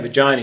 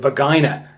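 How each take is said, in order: First: The word is said in the speaker's plain accent. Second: The word is said with a German-like accent. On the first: "he didn't say vagina" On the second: "He sounded a bit like Arnold Schwarzenegger"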